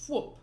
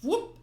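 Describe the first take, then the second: First: Said in the usual way. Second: Whoop! yelped much higher and louder; voiced whoop. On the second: Shown as a demonstration. Reader redoing the comic's Whoop!, high and loud. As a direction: pop out Whoop! as a sharp high yelp. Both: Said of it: "he technically says".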